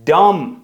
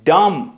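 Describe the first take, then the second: The two takes are said the same way.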